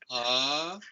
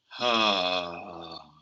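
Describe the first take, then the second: First: It is voiced as if held up. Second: It is voiced as if held down.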